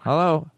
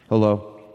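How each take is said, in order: First: It is said in a nasal phone-like voice. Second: It is said in a natural voice.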